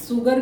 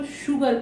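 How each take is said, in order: First: 'सुगर' with a plain s instead of sh; wrong 'सुगर'. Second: 'शुगर' opening with a sh sound; correct 'शुगर'. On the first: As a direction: hiss an s at the start of 'सुगर'. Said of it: "सुगर भी नहीं पढ़ रहे". ('सुगर' को स की ध्वनि से) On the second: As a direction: start 'शुगर' on sh, not s. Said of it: "हम इसको शुगर पढ़ रहे हैं". ('शुगर' को श की ध्वनि से) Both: Shown as a demonstration.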